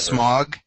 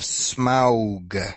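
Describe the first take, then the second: First: The name sounds like the word smog. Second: The name is said differently from the word smog. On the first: This is the pronunciation fans objected to. The speaker calls it wrong. "I pronounced it" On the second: This is the pronunciation fans accept. The speaker calls it right. "which is how you're supposed to pronounce it"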